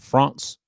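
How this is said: It is pronounced with a French-style sound.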